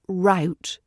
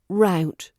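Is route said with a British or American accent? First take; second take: American; American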